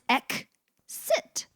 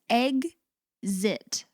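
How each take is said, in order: First: The x is said with a k-s sound. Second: The x is said with a g-z sound.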